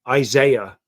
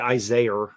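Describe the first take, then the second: First: The word ends without an added R. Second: An R sound is added at the end. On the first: This is how the speaker normally says it. "Isaiah, right?" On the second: This is the thick city accent, not the speaker's. "I don't say Isaiah"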